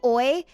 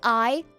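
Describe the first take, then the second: First: The vowel is an Australian-style 'oy' sound. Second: The vowel is a plain 'eye' sound. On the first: "it would be like oi ... to make it sound very, very Australian" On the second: "instead of saying like I"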